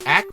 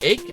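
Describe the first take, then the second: First: It ends with a short A and K sound. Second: It ends with a long A and K sound. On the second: "the A C H E could be ache"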